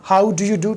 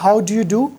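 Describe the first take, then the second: No difference in how they are said.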